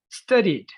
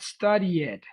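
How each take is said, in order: First: The ending is a plain d with no extra syllable. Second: The ending is an extra syllable, like "study it". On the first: The speaker calls it right. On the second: The speaker calls it wrong.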